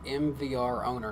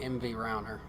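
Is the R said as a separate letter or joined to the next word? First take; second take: separate letter; joined. First: The R is said as a separate letter. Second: The R is joined into one word, Rowner. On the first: The speaker calls it right. "It's M V R owner" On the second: The speaker calls it wrong. "not M V Rowner"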